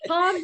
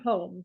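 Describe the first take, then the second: First: The name rhymes with 'hum'. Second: The name rhymes with 'home'. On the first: The speaker calls it right. "Yes, Hum" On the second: The speaker calls it wrong. "not home"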